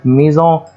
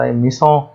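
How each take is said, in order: First: The middle consonant is a z sound. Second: The middle consonant is an s sound. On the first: The speaker calls it right. "فتنطق زد" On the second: The speaker calls it wrong. "ما ينفعش انطق ميسون، خطأ"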